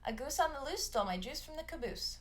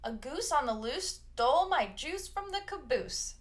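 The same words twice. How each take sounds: First: The sentence is said at a faster speed. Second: The sentence is said at a normal speed. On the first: "A little faster" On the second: "One more time"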